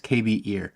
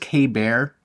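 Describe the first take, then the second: First: The name is said as three syllables. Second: The name is said as two syllables. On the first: The speaker calls it right. "but I think it's K B Ear" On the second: The speaker calls it wrong. "I always thought it was K Bear"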